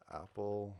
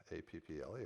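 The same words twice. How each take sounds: First: Said in the usual way. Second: A P P L E said as separate letters, one by one; spelled out letter by letter. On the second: Shown as a demonstration. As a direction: spell out A P P L E, each letter on its own. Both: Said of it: "you can spell it out like".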